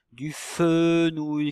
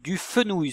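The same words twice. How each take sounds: First: "fenouil" with a long, held "fe"; first syllable drawn out. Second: Said in the usual way. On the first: Shown as a demonstration. Teacher asks pupils for the first syllable of the word, stretching "fe" in "fenouil". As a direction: stretch the start of "fenouil" slowly, then add "nouil". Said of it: "quelle est la syllabe au début du mot fenouil". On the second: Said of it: "quelle est la syllabe au début".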